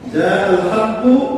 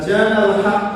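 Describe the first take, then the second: First: The last word ends with a final u vowel. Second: The last word ends on the k consonant. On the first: The speaker calls it right. "শব্দ হলো জাল হাক্কু" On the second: The speaker calls it wrong. "এই কুকে ক করে দেওয়ার কারণে আসমান থেকে জমিনের অর্থ নেমে আসছে।"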